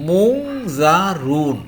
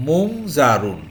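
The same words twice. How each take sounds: First: মুংজারুন drawn out very slowly, syllable by syllable; slow sound-out. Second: Said in the usual way. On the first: Shown as a demonstration. Teacher to Bengali students learning Arabic, slowly sounding out মুংজারুন. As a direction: stretch out মুংজারুন so students catch every sound. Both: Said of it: "এখানে আছে".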